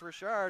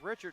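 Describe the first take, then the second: First: The name is said with French pronunciation. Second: The name is said with English pronunciation. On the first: The speaker calls it right. "as in French" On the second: The speaker calls it wrong. "I was thinking it was Richard"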